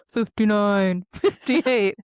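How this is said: The voice is deep, loud and intimidating. It is heard in the arena through voice effects. "loud and intimidating and really deep voiced"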